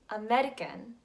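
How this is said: It is said with an Indian accent. "The Indian pronunciation"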